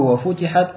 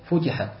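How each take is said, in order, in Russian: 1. Звук т удвоен и произносится дольше. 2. Звук т одиночный и короткий. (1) "битаждиди" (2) "известное чтение какое?"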